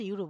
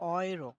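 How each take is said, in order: First: The word begins with a 'yoo' sound. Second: The word begins with an 'oy' sound. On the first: This is the English way of saying it. "আমরা ইংলিশে ইউরো বলি" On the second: This is the German way of saying it. "ডয়েসে কি বলে? অয়রো"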